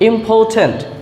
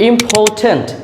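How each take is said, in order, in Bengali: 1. স্বরবর্ণের পরের r নীরব থাকে। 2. স্বরবর্ণের পরের r নীরব থাকে।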